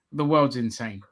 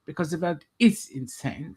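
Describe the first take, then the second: First: Said in the usual way. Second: Put-on German accent. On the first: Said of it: "last time I'm doing that bloody accent". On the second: Presenter explains the show's title, mock German accent. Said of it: "speaking in a German accent".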